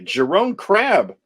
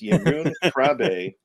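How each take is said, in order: First: The name gets an Americanized English pronunciation. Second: The name gets a native Dutch pronunciation. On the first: The speaker calls it wrong. "us Americans would say" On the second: The speaker calls it right. "but it's"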